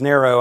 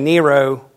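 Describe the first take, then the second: First: The name is said the way people say it abroad. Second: The name is said in a Southern US accent. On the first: "after living overseas where everybody says Nero" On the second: "I feel like I'm speaking with a southern accent"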